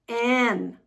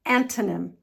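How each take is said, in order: First: "Antonym" split with pauses as AN, tuh, nim; slow syllable breakdown. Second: Said in the usual way. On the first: Shown as a demonstration. Teacher demonstrating to learners, "Antonym" slowly broken up. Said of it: "the words slowly". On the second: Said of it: "practice the word at normal speed".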